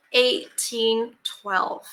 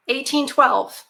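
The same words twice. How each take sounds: First: "Eighteen twelve" drawn out very slowly and weighted; slow emphasis. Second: Said in the usual way. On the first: Shown as a demonstration. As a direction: let "Eighteen twelve" sink in, word by word. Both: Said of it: "Think about eighteen twelve".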